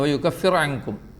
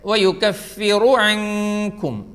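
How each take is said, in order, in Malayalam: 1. r നിശ്ശബ്ദമാണ്, കട്ടിയായി ഉച്ചരിക്കുന്നു. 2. r-ന് പിന്നാലെ ഹ്രസ്വമായ u സ്വരാക്ഷരം വരുന്നു. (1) "പലപ്പോഴും കേട്ടിട്ടുണ്ട്" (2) "ഇവിടെ വയുകഫിറു അൻകും"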